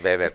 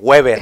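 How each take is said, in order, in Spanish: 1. Weber se dice con una pronunciación alemana. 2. Weber se dice con una pronunciación española. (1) "Qué correcto el alemán, ¿viste? Max Weber, porque así se pronuncia" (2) "otros nacos dijéramos Max eh, Weber"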